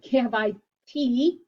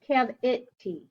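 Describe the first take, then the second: First: The middle vowel is a long 'eye' sound. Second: The middle vowel is a short 'ih' sound. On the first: The speaker calls it wrong. "It's not" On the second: The speaker calls it right.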